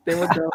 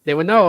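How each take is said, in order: First: Laughing. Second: Said in the usual way. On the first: Real, not acted. Laughing retelling the reaction.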